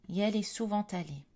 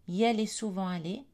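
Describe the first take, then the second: First: A linking t sound joins souvent and allé. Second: The words are said without a linking consonant. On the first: It sounds formal. "Formel, liaison" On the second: It sounds informal. "Informel, pas de liaison"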